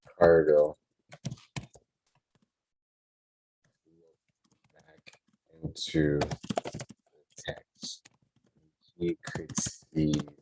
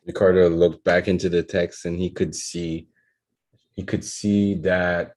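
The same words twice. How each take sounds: First: Halting word by word, trailing softer; slow dictation. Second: Fluent, fast read-through of a draft; quick read-back. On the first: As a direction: dictate it slowly as you write. Writing the sentence as spoken. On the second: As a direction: read it back briskly in one go. Reads the written sentence back. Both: Real, not acted.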